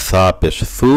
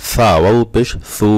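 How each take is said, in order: First: Final সু short, lisped th; no stretch. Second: Final সু held long, lisped th; with stretch. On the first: Teacher drills students on short vowels, short lisped সু. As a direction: say সু briefly with tongue tip forward. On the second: Teacher drills students on madd, long lisped সু. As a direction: draw out সু with tongue tip forward. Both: Shown as a demonstration. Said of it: "কোথায় টান আছে এবং কোথায় টান নাই".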